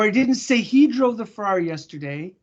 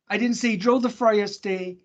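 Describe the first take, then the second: First: The stress falls on the word he. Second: The stress falls on the word Ferrari. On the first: A different person was named. "I said she" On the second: A different car was named. "It was a Porsche"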